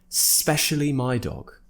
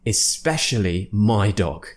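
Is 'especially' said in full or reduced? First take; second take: reduced; full. First: It is said fast, with the 'i' dropped. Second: Every syllable of 'especially' is said clearly. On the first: "when a native speaker talks really fast" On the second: "in its true form, it's especially"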